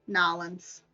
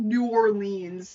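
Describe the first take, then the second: First: The name is squeezed into about two syllables. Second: Each syllable of the name is said in full. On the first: The speaker calls it right. "That's how you pronounce it" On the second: The speaker calls it wrong. "It's not New Orleans"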